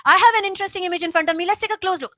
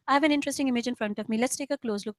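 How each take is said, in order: First: Loud, forceful, too much energy; overly loud reading. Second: Easy, unhurried, relaxed delivery; just say it normally, no push; relaxed reading. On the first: Coach showing students the wrong way, too loud and forceful. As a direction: push it out hard, the wrong way. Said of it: "You don't have to say it loudly". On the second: Coach showing students the right way, calm and relaxed. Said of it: "I'm doing it in a very relaxed manner". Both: Shown as a demonstration.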